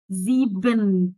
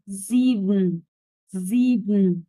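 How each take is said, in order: First: Slow "زيبن" with a clear vowel in the last syllable; wrong full BEN. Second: "زيبن" as zee-bn, last vowel swallowed; muted, elegant ending. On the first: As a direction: spell out the faulty "ben" ending of "زيبن". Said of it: "البن اللي في الآخر غلط". ("زيبن" ببطء وبِن غلط في الآخر) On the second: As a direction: say "زيبن" slowly, closing straight onto the n. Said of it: "واكتم الصوت في الآخر". ("زيبن" بشياكة مع كتم الآخر) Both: Shown as a demonstration.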